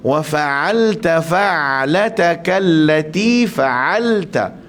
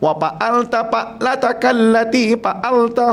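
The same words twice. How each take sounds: First: Fa and ain are both pronounced clearly. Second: Fa sounds like p and ain like plain a. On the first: The speaker calls it right. "Sedangkan bacaan dia ... macam tu" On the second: The speaker calls it wrong. "kalau kita tak mahir dalam huruf fa, dia jadi pa ... huruf ain, dia jadi a ... semua salah"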